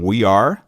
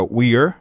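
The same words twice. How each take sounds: First: Said in the usual way. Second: "we're" said as one syllable, are folded into we; teacher showing the class the contraction "we're"; contracted we're. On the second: Shown as a demonstration. Professora mostra a contração "we're". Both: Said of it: "fica we're".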